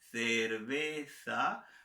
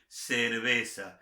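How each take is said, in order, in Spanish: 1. Se dice con acento de España. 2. Se dice con acento latinoamericano. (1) "pronunciación española" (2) "pronunciación latinoamericana, la mía natural"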